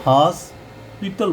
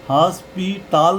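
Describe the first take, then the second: First: हॉस्पिटल with short final "tal", haas-pital; corrected pronunciation. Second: हॉस्पिटल ending in a long "taal", haas-pee-taal; wrong pronunciation. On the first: Teacher gives students the right ending, corrected pronunciation. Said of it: "ये हॉस्पिटल बोलेंगे". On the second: Teacher shows students the ending to avoid, wrong pronunciation. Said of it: "हॉस्पिटल नहीं बोलेंगे". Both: Shown as a demonstration.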